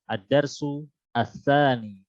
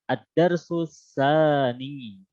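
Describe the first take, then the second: First: Each word is read separately, keeping the article vowel. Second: The words are joined, dropping the article vowel. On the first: "Itu jika bacanya uh, perkata" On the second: "Atau boleh dibaca wasal"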